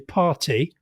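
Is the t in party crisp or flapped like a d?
crisp. The t is crisp, British style. This is how it is said on British radio. "on Radio four, you will say party"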